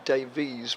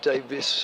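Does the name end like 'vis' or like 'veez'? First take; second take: veez; vis. First: The name ends with a long 'veez' sound. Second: The name ends with a short 'vis' sound. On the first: This is the strictly correct form of the name. The speaker calls it right. "strictly speaking, it should be Davies" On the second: This is how the speaker habitually says it. The speaker calls it wrong. "I always pronounce it Davis"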